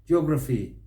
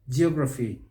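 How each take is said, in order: No difference in how they are said.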